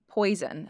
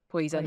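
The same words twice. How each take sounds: First: It has an American accent with a wide oi glide. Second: It has a Scottish accent with a small oi glide. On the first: "if I say it in American, the diphthong is quite big" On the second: "with Scots... it's nowhere near as big"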